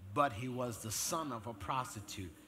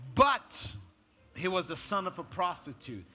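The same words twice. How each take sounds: First: No special stress falls on "but." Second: The word "but" is strongly stressed.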